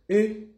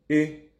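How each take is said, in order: First: The syllable is said on a high pitch. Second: The syllable is said on a mid pitch. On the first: "tonalité haute" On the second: "tonalité médium"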